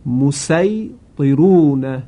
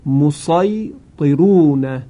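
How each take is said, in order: First: مسیطرون slow with plain s; مسیطرون with sin, drawn out. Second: مسیطرون slow with emphatic sad; مسیطرون with sad, drawn out. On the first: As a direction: recite مسیطرون with light s. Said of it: "وجه دوم با سین هست". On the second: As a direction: recite مسیطرون with heavy s. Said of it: "با صاد خوانده شده". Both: Shown as a demonstration.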